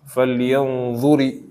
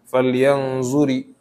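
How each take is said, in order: First: The consonant is an emphatic dh sound. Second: The consonant is a plain z sound. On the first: The speaker calls it right. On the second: The speaker calls it wrong.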